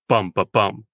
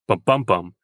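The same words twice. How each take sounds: First: The first and last beats are stressed. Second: Only the middle beat is stressed.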